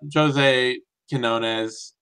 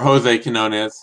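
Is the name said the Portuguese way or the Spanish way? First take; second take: Portuguese; Spanish. First: The name is said with Brazilian Portuguese sounds. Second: The name is said with Spanish sounds. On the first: The speaker calls it wrong. "I get too used to the damn Brazilians" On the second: The speaker calls it right.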